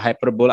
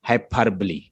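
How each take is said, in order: First: The word ends with a 'bowl' sound. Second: The word ends with a 'lee' sound. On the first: The speaker calls it wrong. "बहुत सारे लोग इसको हाइपरबोल बोलेंगे ना। No, it's not a हाइपरबोल" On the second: The speaker calls it right. "The exact pronunciation is हाइपरबली"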